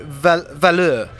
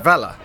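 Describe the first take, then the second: First: It sounds like velour, stressed at the end. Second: It sounds like valour, stressed at the start. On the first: The speaker calls it wrong. "did you know he pronounced it Valor?" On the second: The speaker calls it right. "But it's Valor, as in bravery"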